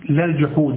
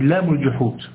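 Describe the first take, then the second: First: The first word ends without a final m sound. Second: The first word ends with a clear m sound. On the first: The speaker calls it wrong. "لا تقولي لا الجحود" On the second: The speaker calls it right. "لام الجحود وليس لا الجحود"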